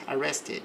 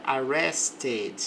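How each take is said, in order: First: "arrested" repeated softer, -ed as a syllable; e pronounced again. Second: "arrested" with the -ed sounded as a full syllable; "arrested", ed as its own syllable; e pronounced. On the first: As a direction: echo "arrested" quietly, e sounded. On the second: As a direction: say "arrested" with the e clearly voiced. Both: Shown as a demonstration. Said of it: "pronunciar o E do passado normalmente".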